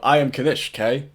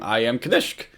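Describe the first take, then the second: First: The K is said as a separate letter. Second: The K is joined onto the end of the name. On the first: The name is misread. The speaker calls it wrong. "At first, I thought it was" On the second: The name is read as intended. The speaker calls it right. "his name is actually spelt, I believe, spelt like with the K at the end"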